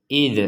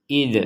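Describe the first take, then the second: No difference in how they are said.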